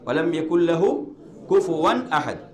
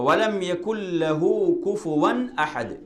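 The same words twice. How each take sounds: No difference in how they are said.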